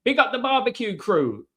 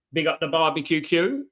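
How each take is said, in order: First: "barbecue crew" pitched higher, each sound carefully enunciated; "Big up the barbecue crew" lifted high, crisp and deliberate on every syllable; nailing the tongue twister. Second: Said in the usual way. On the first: Shown as a demonstration. Streamer finally gets the tricky phrase right, higher and crisp. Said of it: "That's it". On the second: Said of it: "that's hard to say".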